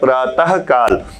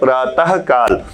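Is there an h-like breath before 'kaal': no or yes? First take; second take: yes; yes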